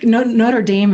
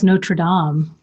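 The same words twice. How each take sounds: First: The name is said with an American pronunciation. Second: The name is said with a French pronunciation. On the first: It names the university. "English or American pronunciation" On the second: It names the cathedral in Paris. "French pronunciation"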